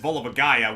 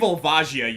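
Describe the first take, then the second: First: The name ends with a 'guy-uh' sound. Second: The name ends with a 'jee-uh' sound. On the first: The speaker calls it wrong. "it's not the correct pronunciation" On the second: The speaker calls it right. "I say Volvagia"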